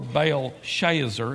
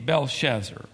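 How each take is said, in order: First: The name is said with a North Carolina pronunciation. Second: The name is said in a standard pronunciation.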